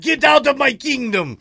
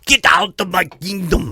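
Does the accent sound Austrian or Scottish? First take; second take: Scottish; Austrian. First: It is said in a Scottish-sounding accent. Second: It is said in a heavy Austrian-style accent. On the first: "He just sounded a little Scottish right there" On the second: "that sounded like Schwarzenegger now"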